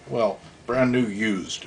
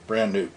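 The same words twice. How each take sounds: First: "brand" drawn out long and slow, falling; slow stress on brand. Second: Said in the usual way. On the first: Shown as a demonstration. Correcting himself about the car, slow stress on "brand". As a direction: lean on "brand" slowly, as a wry correction.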